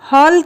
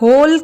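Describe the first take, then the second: First: The vowel lies between aa and o. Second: The vowel is a closed o sound. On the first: The speaker calls it right. "यह ध्वनि हिंदी के आ एवं ओ के मध्य की ध्वनि है।" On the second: The speaker calls it wrong. "हाल या होल कहना अनुचित होगा"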